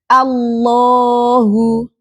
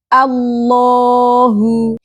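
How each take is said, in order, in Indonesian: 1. L-nya adalah L yang penuh dan tebal. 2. L-nya adalah L yang penuh dan tebal.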